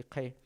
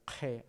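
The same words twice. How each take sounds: First: "G" said as Quechua Q alone, without an H; plain Q sound. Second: "G" said as Quechua Q joined by a sounded H. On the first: Teacher repeating how Q alone is pronounced, plain Q sound. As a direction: demonstrate "G" as a lone Q with no H. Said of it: "o se pronuncia así". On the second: Teacher showing how added H changes the letter, Q with H. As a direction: let a J-like H colour the Q in "G". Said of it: "así se va a leer". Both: Shown as a demonstration.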